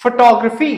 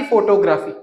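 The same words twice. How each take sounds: First: फोटोग्राफी as "fuh-TOG-ruh-fee"; correct photography pronunciation. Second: फोटोग्राफी as "fo-to-GRAF-ee"; full "photo" plus "graf" in फोटोग्राफी; wrong photography pronunciation. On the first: Teacher modelling for students, फोटोग्राफी as "fuh-TOG-ruh-fee". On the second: Teacher showing the mistake, फोटोग्राफी as "fo-to-GRAF-ee". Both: Shown as a demonstration. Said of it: "ना कि फोटोग्राफी".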